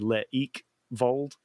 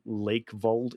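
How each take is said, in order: First: The first syllable's vowels are sounded out separately. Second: The first syllable's vowels blend into one sound.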